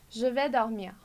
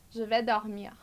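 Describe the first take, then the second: The two takes are said the same way.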